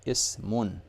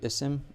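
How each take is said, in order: First: The word ends with a final 'un' sound. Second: The word ends without a final 'un' sound. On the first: The speaker calls it right. "it's ismun" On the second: The speaker calls it wrong. "It's not really isim"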